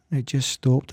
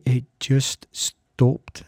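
First: Said in the usual way. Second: It just stopped, said very slowly and drawn out; slow, hushed. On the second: Real, not acted. Telling listeners how the illness ended, slow and hushed. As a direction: let each word land slowly.

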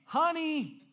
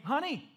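First: Loud, high, insistent call; calling out louder. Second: Raised-pitch call for attention; first try at getting someone's attention; calling to wife. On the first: Husband calls his wife who has AirPods in, loud and high. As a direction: raise your voice to get through to them. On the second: Husband calls to his wife with AirPods in, a higher call. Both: Acted.

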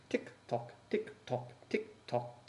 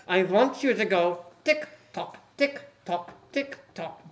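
First: Hushed tick tock, much softer; whispered tick tock. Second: Chanted, tick tock said slowly, stressing tick. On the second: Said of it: "At the word". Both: Acted.

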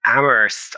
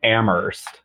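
First: Amherst said AM-ust, h dropped, r dropped; old farmer. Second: Amherst with a silent h, said AM-erst; Amherst said soft, h dropped, AM-urst; Amherst pronunciation. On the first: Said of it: "I just sound like a farmer". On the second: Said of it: "the correct pronunciation is". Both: Shown as a demonstration.

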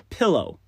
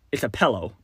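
First: Said in the usual way. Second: "pillow" said with an eh vowel, "pell-oh"; pillow as pellow. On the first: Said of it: "But if I didn't think about it first". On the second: Shown as a demonstration. Texas-raised guy showing his old pillow pronunciation. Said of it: "if I didn't think about it first, it'd be".

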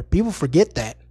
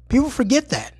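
First: Said in the usual way. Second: Breathy repeated whisper. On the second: Shown as a demonstration. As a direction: whisper it like a secret.

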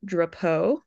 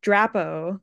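First: "Drapeau" as druh-POH; dad's pronunciation. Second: "Drapo" with a plain full O at the end; family's pronunciation. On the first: Guest showing dad's preferred name, "Drapeau" as druh-POH. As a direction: say "Drapeau" with the weight on the last syllable, druh-POH. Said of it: "he wanted me to say it". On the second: Guest showing how her family says her name, "Drapo" as DRAP-oh. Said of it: "they say". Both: Shown as a demonstration.

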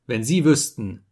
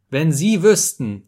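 First: Said in the usual way. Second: Louder, slower, higher repeat of wenn Sie wüssten; emphatic plea. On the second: Acted. Narrator pleading with Simono, repeating it louder and slower. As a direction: lean hard into the second wenn Sie wüssten.

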